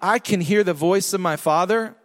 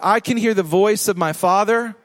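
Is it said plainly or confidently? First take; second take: plainly; confidently. First: It is said in a plain, ordinary way. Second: It is said in a confident, bold way.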